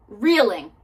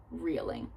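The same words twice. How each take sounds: First: Reeling repeated louder, pushed out; louder second reeling. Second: Reeling said low and very soft; soft first reeling. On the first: To her viewers, the repeat of reeling pushed louder. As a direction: punch reeling the second time. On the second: To her viewers, the first reeling sunk low and soft. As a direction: let reeling sink low and quiet. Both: Shown as a demonstration.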